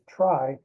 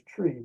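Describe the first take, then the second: First: The vowel is an 'eye' sound. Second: The vowel is a long 'ee' sound. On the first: It keeps the term distinct from trees. The speaker calls it right. "I pronounce it as try" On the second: This is how the term's coiner said it. The speaker calls it wrong. "He liked to pronounce this word as tree"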